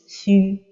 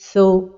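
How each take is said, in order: First: The vowel is thin and pushed forward. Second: The vowel is heavy and pulled back. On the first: "l'amincir comme ceci" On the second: "emphatiser la voyelle comme ceci"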